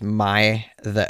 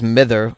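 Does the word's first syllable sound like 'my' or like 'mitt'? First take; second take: my; mitt. First: The first syllable sounds like the word 'my'. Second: The first syllable has a short 'i' sound. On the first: The speaker calls it right. "apparently was pronounced my the" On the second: The speaker calls it wrong. "what I thought was mither"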